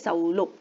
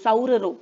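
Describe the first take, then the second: First: A single l sound is pronounced in the middle. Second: Two separate r sounds are pronounced in the middle. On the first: The speaker calls it right. "र आणि र असेल तर आपण त्याचा उच्चार काय करतो, ल करतो" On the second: The speaker calls it wrong. "उच्चार बघा खूप कठीण होतो"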